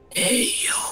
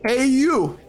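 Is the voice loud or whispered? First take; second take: whispered; loud. First: It is said in a whisper. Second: It is said in a loud voice.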